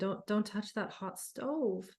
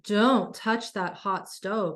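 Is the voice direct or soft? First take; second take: soft; direct. First: The voice is soft and gentle. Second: The voice is firm and direct. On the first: The speaker calls it wrong. "You can't be soft with a voice and say" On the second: The speaker calls it right. "It has to be quite direct"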